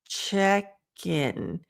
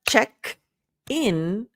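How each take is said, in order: First: The two words are linked together smoothly. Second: The two words are said separately. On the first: The speaker calls it right. "we want that connected speech" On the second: The speaker calls it wrong. "So instead of check in"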